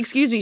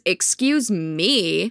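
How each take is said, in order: First: It is said in a plain, polite tone. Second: It is said in a sarcastic tone. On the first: A sincere apology for bumping into someone. "Rachel doesn't say" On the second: A mocking rebuke rather than an apology. "In a sarcastic voice"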